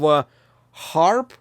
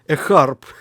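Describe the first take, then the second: First: It is said in a plain accent. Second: It is said in a Russian accent.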